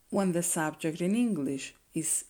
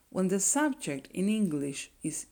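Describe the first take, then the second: No difference in how they are said.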